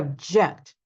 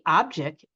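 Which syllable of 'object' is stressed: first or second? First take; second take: second; first. First: The stress is on the second syllable. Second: The stress is on the first syllable. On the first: It is a verb, to disagree. "they turn into a verb if we stress the second syllable" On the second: It is a noun, a thing. "they are a noun if we stress the first syllable"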